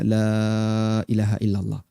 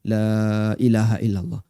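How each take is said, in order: The two takes are said the same way.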